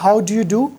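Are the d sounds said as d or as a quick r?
d. The d sounds are pronounced as clear d. This is the British way. "British में तो तकरीबन"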